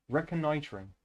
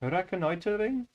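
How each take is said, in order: First: Said in the usual way. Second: Put-on "Reconnoitering" in a questioning Indian accent; tentative Indian-accented "Reconnoitering". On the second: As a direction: try "Reconnoitering" higher, Indian-accented, rising at the end. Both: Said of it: "how can I say that word?".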